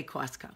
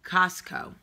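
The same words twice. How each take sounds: First: "Costco" with a rounded waw vowel, KWAWS-koh; regional pronunciation. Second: "Costco" with an open ah vowel, KAHS-koh; normal pronunciation. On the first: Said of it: "We say Costco". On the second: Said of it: "most normal people say it". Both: Shown as a demonstration.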